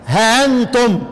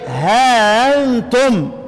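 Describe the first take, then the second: First: The vowel after h is short, hamza softened. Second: The vowel after h is long, hamza softened. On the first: "ورش يقرأ بحذف الألف مع التسهيل" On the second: "وقالون يقرأ بإثبات الألف مع التسهيل"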